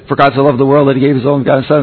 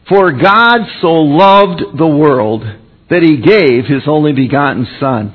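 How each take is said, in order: First: The verse is rattled off very fast. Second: The verse is spoken at a normal pace.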